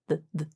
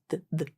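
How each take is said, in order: The two takes are said the same way.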